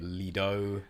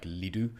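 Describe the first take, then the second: First: The last vowel sounds like 'oh'. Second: The last vowel sounds like 'oo'.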